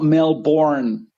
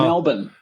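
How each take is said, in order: First: The second syllable is full, with an r sound. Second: The second syllable is a short reduced 'bin'. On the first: The speaker calls it wrong. "It's not Melbourne" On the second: The speaker calls it right. "just bin. No vowels, no R sound"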